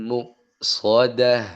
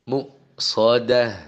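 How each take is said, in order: The two takes are said the same way.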